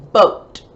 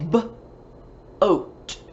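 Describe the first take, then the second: First: Said in the usual way. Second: "B-oat" with a clear gap after the B; sounded out. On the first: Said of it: "rhymes with the word". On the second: Shown as a demonstration. Teacher showing pupils a rhyme, "B-oat" broken into sounds. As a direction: separate the first sound of "B-oat" from the rest. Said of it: "Let's take away the B".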